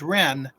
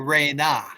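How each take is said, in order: First: The word is said as one syllable. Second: The word is said as two syllables. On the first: The speaker calls it wrong. "he guessed that the proper phonetic for this word was Ren" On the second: The speaker calls it right. "this phonetic should properly be Re Na"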